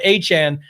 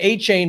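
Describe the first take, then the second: First: The last syllable sounds like 'chan'. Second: The last syllable sounds like 'chain'. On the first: The speaker calls it right. "I put the Canadian spin on it" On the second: The speaker calls it wrong. "make sure you're not saying A-Chain anymore"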